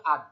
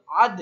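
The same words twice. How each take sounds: First: Said in the usual way. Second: আদ said louder, the দ released with a clear bounce; bounced qalqalah. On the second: Shown as a demonstration. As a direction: give the দ in আদ a strong push. (আদ-এর দ-তে ধাক্কা দিয়ে জোরে) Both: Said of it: "এই যে ধাক্কা দেওয়া হলো".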